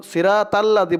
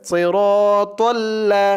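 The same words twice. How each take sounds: First: "সিরাতাল্লাযি" with thin "ra" and "tal"; wrong light ta. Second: "সিরাতাল্লা" slow, rounded "ro" and thick "tol"; correct heavy ta. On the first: Teacher showing what not to say, "সিরাতাল্লাযি" light and thin. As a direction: say "সিরাতাল্লাযি" quickly with flat open vowels. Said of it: "বলা যাবে না". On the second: Teacher giving the right way, "সিরাতাল্লা" slow and thick. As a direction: draw out "সিরাতাল্লা" with full heavy letters. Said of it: "বলতে হবে". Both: Shown as a demonstration.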